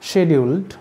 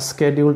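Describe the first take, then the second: First: The word begins with an 'sh' sound. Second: The word begins with an 'sk' sound. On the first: "শিডিউলড বা স্কেডিউলড উচ্চারণ করতে পারি আমরা" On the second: "শিডিউলড বা স্কেডিউলড উচ্চারণ করতে পারি আমরা"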